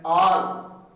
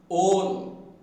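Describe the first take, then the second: First: The vowel sounds like a long A. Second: The vowel sounds like an O. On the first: The speaker calls it wrong. "we pronounce the word A L L as all" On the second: The speaker calls it right. "Its pronunciation is all"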